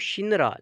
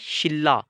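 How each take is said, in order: First: It is said with an n before the r. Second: It is said with a double l sound. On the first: This is how the word is written. "अब शिनरा लिखेंगे तो शिनरा" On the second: This is how the word is actually pronounced. "Pronounce करना है, तो ये बन जाएगा शिल्ला"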